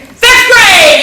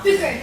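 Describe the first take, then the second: First: High, loud burst of delight; excited exclaim. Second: Said in the usual way. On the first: Real, not acted. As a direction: shout it out thrilled. Excited repeat.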